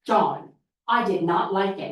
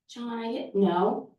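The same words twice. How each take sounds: First: Firm "John, I did not like it." with "not" leaned on, falling; assertive voice. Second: Slow, unsure "John, I didn't know." rising at the end; timid reply. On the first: Child practicing standing up to John, firm and assertive. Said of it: "We're gonna practice our assertive voice". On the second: Child answering weakly before learning assertiveness, timid. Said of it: "practice our assertive voice". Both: Shown as a demonstration.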